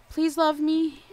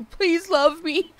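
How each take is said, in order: First: Pleading to game characters; mock begging. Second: More pleading plea, pitched up; mock begging, higher. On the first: Streamer begging her villagers to love her, mock pleading. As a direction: beg playfully. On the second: Streamer begging her villagers again, pitched up and pleading. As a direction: beg harder, playfully. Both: Real, not acted. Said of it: "begging my Animal Crossing characters".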